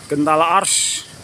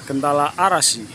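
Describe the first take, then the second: First: The last word is shortened to one syllable. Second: The last word is said with three full syllables. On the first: The speaker calls it wrong. "orang sering nyebutnya Gentala Ars" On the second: The speaker calls it right. "Yang betul adalah Gentala Arasi"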